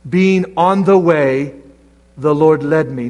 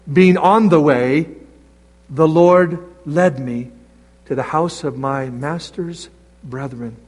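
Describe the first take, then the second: First: Slow, each word of "Being on the way" drawn out, "Lord" falling; preacher leaning on "the way"; stressed reading. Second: "on" lifted on a rising tune, slowly; slow, stress "on" and "Lord"; stressed reading. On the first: Preacher rereading the verse to his church, slow and stressed. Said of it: "Look at that verse". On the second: Preacher correcting the reading for his church, slow and stressed. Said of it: "It says". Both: Shown as a demonstration.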